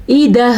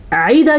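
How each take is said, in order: First: "ایدہ" begun with a clean glottal hamza; correct hamza. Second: "عیدہ" begun with a throaty ain; wrong ain for hamza. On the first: Teacher correcting students, "ایدہ" started on a plain hamza. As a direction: say "ایدہ" with a light hamza, no ain. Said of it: "حمزہ ہے تو حمزہ ہی پڑھنا ہے". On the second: Teacher showing the mistake, "عیدہ" started on a pharyngeal ain. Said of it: "عیدہ کیا تو غلط ہو گیا". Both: Shown as a demonstration.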